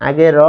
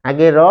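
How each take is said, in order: Both takes have the same delivery.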